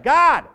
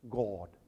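First: It is simply shouted out loudly. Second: It is said in a polished, resonant voice. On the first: "just a loud one" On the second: "not a trained voice"

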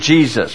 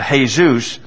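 First: The opening J sound is clearly pronounced. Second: The opening J sound is nearly silent. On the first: "we read it Jesus" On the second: "But the J is more silent"

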